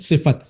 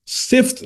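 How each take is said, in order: First: The f is followed by a short a vowel. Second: The f is followed directly by t, no vowel. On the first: The speaker calls it right. "फा पर क्या आएगा? फतहा आएगा।" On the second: The speaker calls it wrong. "सिफ्त नहीं पढ़ेंगे"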